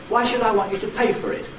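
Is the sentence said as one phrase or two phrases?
one phrase. One phrase, with the main stress only on pay. "With one nucleus on pay"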